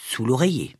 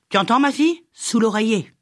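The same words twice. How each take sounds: First: Said in the usual way. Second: Higher-pitched, pressing "Sous l'oreiller"; old healer insisting on "Sous l'oreiller"; insistent repeat. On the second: A narrator's reading. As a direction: drive home "Sous l'oreiller" on a raised pitch. Witch insists, repeating her instruction.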